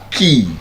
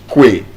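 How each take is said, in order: First: The word sounds like 'kee', rhyming with 'see'. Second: The word sounds like 'kway', rhyming with 'day'. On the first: The speaker calls it right. "The correct pronunciation is Ki" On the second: The speaker calls it wrong. "And Kwe would be absolutely wrong"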